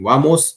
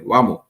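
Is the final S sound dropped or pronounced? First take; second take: pronounced; dropped. First: The final S sound is clearly pronounced. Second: The final S sound is left out. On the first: "instead of saying" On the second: "don't pronounce the S's in their words"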